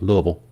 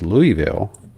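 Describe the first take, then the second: First: It is said the way Louisville locals say it. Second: It is said the way visitors to Louisville say it.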